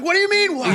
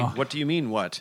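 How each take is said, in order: First: It is said as a real, searching question. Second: It is said flatly, like reading a line. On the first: The speaker truly wants an answer. The speaker calls it right. "really ask me, and suddenly he's going" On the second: The line is only recited, not meant. The speaker calls it wrong. "don't just deliver the line as the VP holding the thing. Don't say"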